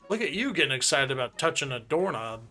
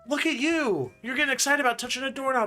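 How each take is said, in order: First: It sounds flat, teasing and mocking. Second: It sounds warm, upbeat and encouraging. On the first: The person is being made fun of. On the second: The person is praised for real progress.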